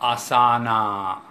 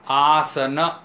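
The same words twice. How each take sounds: First: The final vowel is long and drawn out. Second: The final vowel is short and clipped. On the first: The speaker calls it wrong. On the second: The speaker calls it right.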